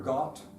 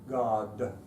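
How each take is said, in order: First: The word ends in a voiceless t sound. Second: The word ends in a voiced d sound. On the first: The speaker calls it wrong. "what I would call English German" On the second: The speaker calls it right. "you need to get them to use their vocal cord"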